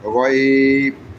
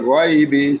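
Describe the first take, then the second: First: The word ends on the consonant, vowel dropped. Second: The word ends with a short i vowel. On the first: The reader stops at this word. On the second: The reading continues without a stop.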